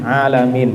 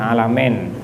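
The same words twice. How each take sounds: First: The last vowel sounds like ee. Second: The last vowel sounds like eh. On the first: The speaker calls it right. "itu juga i" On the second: The speaker calls it wrong.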